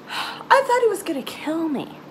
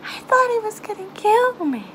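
First: Said in the usual way. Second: Frightened. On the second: Real, not acted. Repeating fear, second take stronger.

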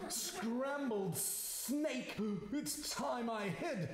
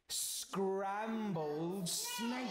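First: High, drawn-out "Scrambled snake?" in alarm. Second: "scrambled snake" stretched out very slowly; menacing relish. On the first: Snake takes fright. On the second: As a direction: draw out "scrambled snake" with relish, slightly higher. Mouse threatens the snake. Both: Acted.

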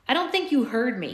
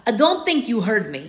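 First: Said in the usual way. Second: Put-on menacing line in a thick Russian accent; guard threatening in a thick Russian accent; dangerous Russian accent. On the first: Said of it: "Uh, excuse me". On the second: A narrator's reading. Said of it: "dangerously in his accent thick Russian".

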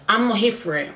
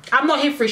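First: Said in the usual way. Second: Emphatic repeat. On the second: Real, not acted. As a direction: say it again, firmer, leaning on NOT. Ranting about Aaliyah's mind games.

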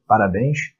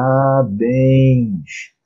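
First: Said in the usual way. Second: Drawn-out "Parabéns", each syllable held long. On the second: Shown as a demonstration. Teacher sounds out the example word for students, drawn out slowly.

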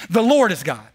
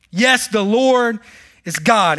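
First: Said in the usual way. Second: Each word drawn out, very slow and firm; slow proclamation. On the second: Acted. Preacher proclaims to the congregation that the Lord is God, slow and firm. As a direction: let it land like a verdict.

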